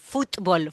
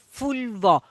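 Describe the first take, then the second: First: The t and the b are both pronounced. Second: The t is dropped, merged into the b. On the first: The speaker had schooling in careful pronunciation. The speaker calls it right. "esa T con esa B larga ahí también" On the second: The speaker never had the pronunciation corrected at school. The speaker calls it wrong. "o una absorbe la otra y cae en la pronunciación"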